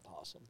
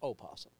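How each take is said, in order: First: The word starts directly with a p sound. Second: The word starts with an extra o syllable. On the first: The speaker calls it wrong. "it's not possum" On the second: The speaker calls it right. "It's opossum"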